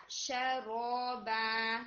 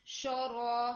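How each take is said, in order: First: شرابا slowly with an open sha, not sho; correct sha. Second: شورا with a rounded sho sound, imitating the error; mistaken sho. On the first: Shown as a demonstration. Teacher giving the correct sha after the wrong one. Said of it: "ولا شا". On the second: Teacher imitating the student's wrong sho. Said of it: "it sounds like".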